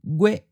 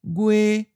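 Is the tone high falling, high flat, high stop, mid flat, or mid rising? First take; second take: high stop; high flat. First: The pitch is high and cut off abruptly. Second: The pitch stays level and high. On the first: This is the form the lesson uses. "we'll just stick with the high stop" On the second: This is how some other regions say it. "In other regions, it may sound like a high flat"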